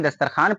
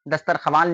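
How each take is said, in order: First: दस्तरखान with plain "khaan" at the end; read form. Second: दस्तरख्वान with "kha-waan" at the end; written form. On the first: Teacher recaps the read form, w left silent. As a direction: say दस्तरखान without any w. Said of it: "दस्तरखान पढ़ते हैं". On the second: Teacher recaps the written form, w sounded. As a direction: pronounce the व in दस्तरख्वान. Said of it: "दस्तरख्वान लिखते हैं". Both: Shown as a demonstration.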